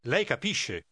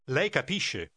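First: "Lei" stressed firmly, then a falling close; emphatic lei. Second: "Lei" given the main stress, firm and falling; emphatic lei. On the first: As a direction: press on "Lei" as if to insist. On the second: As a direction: insist by leaning on "Lei". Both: Shown as a demonstration. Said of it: "Say emphatically".

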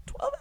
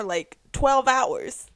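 First: "Twelve hours" squealed very high; squealed repeat. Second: Said in the usual way. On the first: Real, not acted. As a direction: shriek "Twelve hours" high, light and soft.

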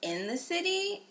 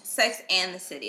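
First: "in the City" slow, lifted high at the start; "in the City" drawn out in a higher voice; mistaken title. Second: "Sex and the City" with a clear "and" and falling end; "Sex and the City" in usual pitch, settled fall; corrected title. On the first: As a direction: say "in the City" slowly, pitched up as the doubtful version. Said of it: "It's not called Sex in the City". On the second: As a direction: state "Sex and the City" firmly, pronouncing "and" in full. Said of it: "it is Sex and, not in". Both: Shown as a demonstration.

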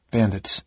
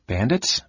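First: Cool, falling confirmation; cold answer. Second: Restrained surprise, rising at the end; startled question. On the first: Garrick answering his startled cousin, coldly. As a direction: state it coldly, dropping at the end. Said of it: "the young man answered coldly". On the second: Michael hearing cousin joined bandits, startled. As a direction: ask it startled, pitch lifting. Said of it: "trying to keep a startled tone from his voice, and failing". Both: A narrator's reading.

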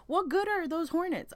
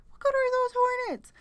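First: Higher, indignant demand; outraged question. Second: Much higher and louder, near a shriek; exasperated outburst. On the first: Vlogger venting to viewers about hornets, indignant. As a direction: ask it like you can't believe they exist. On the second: Vlogger repeating her rant to viewers, shrill outrage. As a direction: throw the question up in real exasperation. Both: Real, not acted. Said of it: "I'm sorry".

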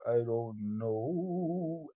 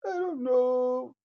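First: Slow and low. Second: Emphatic. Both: Acted. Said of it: "repeated three ways".

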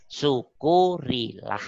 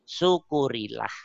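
First: Syukurilah drawn out slowly, each syllable weighed; slow emphatic repeat. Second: Said in the usual way. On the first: Shown as a demonstration. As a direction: stretch Syukurilah out slow and solemn. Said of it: "Syukurilah (ucapan pertama)". (Syukurilah diucapkan pelan dan panjang, penuh penekanan) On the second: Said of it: "Syukurilah (diulang pelan)".

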